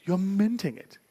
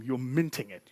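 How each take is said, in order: First: Playful voice. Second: Said in the usual way. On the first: Acted. Repeated in a put-on voice.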